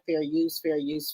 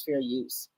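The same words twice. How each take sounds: First: Softly. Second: Trailing off almost to nothing; very soft, fading out. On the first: Repeating legal phrase, voice fading. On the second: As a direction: let it fade away to a hush. Last repeat, fading out. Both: Acted.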